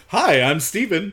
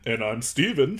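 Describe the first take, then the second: First: High, loud self-introduction; mock podcast host. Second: Put-on voice of a twin co-host; mock second host. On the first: First Steven introducing himself to listeners, high mock-host voice. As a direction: greet listeners in a hammed-up higher host voice. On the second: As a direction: answer yourself as the other, less excitable host. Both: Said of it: "I could just talk to myself".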